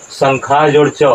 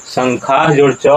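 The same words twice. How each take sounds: The two takes are said the same way.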